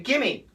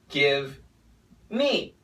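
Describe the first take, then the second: First: The V sound is dropped entirely. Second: The V sound is clearly pronounced.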